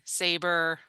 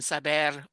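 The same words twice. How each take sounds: First: It is pronounced with English sounds. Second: It is pronounced with Spanish sounds. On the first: "That's the English pronunciation" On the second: "in Spanish it's"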